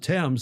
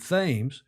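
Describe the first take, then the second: First: The name is said the British way. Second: The name is said the Connecticut way. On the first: This is how the river in England is called. "they don't pronounce it the Thames" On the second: This is how the river in Connecticut is called. "they pronounce it Thames"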